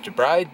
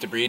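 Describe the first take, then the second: First: The word sounds like 'the bride'. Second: The word does not sound like 'the bride'. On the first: It means a woman getting married. The speaker calls it wrong. "not debride. Debride's the one you marry" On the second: It means to clean dead tissue from a wound. The speaker calls it right. "It's pronounced debride"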